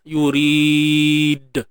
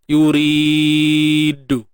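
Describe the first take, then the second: First: The final d is released with no vowel. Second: The final d is followed by a u vowel. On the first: The speaker calls it right. "Pastikan natural je" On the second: The speaker calls it wrong. "ataupun baris depan"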